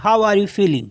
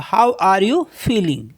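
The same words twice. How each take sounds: First: Said in the usual way. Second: Slow and clear, each word separate; slow model sentence. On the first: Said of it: "आप कैसा feel कर रहे हैं". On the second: Shown as a demonstration. Teacher modelling the question for learners, slow and careful. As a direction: lay it out slowly so they can repeat. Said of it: "कैसा feel कर रहे हो".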